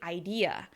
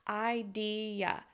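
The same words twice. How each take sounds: First: The E is longer, louder and higher, with a glide. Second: Three even syllables with no glide between them. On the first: The speaker calls it right. "It needs to be idea, right? With that difference between the syllables and the shaping of the sound" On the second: The speaker calls it wrong. "pronounce the word as three even syllables without the shaping between it"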